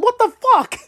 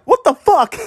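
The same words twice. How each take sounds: First: Much higher, strained cry of disbelief; retelling, he cries it out even higher; shocked cry. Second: Higher, louder cry of disbelief; a fan's stunned cry. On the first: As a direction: let the shock break the voice upward. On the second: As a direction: replay the shock of seeing the play. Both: Retold or imitated. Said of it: "That's what I pretty much said".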